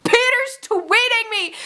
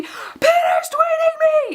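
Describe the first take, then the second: First: High, drawn-out fangirl squeal; retold slow mock scream; excited screaming. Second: Very high, drawn-out mock scream; full-on retold fangirl shriek. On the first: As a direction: squeal it slowly and high, stretching the words. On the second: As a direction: scream it slowly, stretching every word high. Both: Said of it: "I'm, like, screaming".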